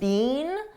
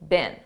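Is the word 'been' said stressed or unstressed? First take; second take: stressed; unstressed. First: The word is said fully, with clear stress. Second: The word is said weakly, without stress. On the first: This is the British way of saying it. "in British English they pronounce it more stressed" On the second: This is the American way of saying it. "in American English we don't do that. We just say been"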